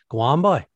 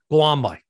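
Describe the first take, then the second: First: It sounds curious, rising like a question. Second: It sounds annoyed and dismissive.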